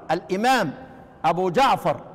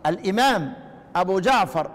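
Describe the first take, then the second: No difference in how they are said.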